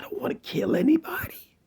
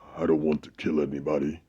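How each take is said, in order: First: It is said in a lighter, mild voice. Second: It is said in a deep, heavy voice. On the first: The speaker sounds harmless and believable. "when you have the lighter voice" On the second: The speaker sounds unconvincing and deceptive. "when you have a deep voice"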